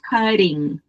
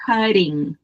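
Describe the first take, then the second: First: It is said with an American accent. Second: It is said with an American accent.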